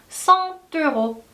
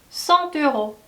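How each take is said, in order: The two takes are said the same way.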